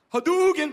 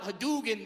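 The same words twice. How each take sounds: First: Loud video-game cry Hadouken; Hadouken battle cry. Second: Said in the usual way. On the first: Retold or imitated. Shouting at the charging guy, game-style battle cry. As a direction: yell Hadouken like throwing a fireball. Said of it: "I just look at him and I go". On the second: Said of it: "I yelled out".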